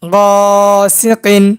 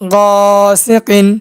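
First: The syllables are joined into one smooth word. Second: The same.

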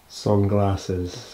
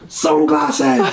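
First: It is said flatly, without enthusiasm. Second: It is said brightly, with enthusiasm.

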